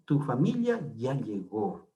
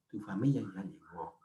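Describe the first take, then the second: First: "Tu familia ya llegó" leído despacio y claro; ejemplo dictado lento. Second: Said in the usual way. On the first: Shown as a demonstration. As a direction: pronunciar "Tu familia ya llegó" pausado, como ejemplo. (lectura lenta de ejemplo en clase) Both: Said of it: "cuando es un adjetivo posesivo".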